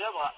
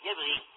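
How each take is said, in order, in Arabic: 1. تنتهي الكلمة بصوت a. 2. تنتهي الكلمة بصوت i. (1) "صار سعودي على اللحن" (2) "يبغي واضح"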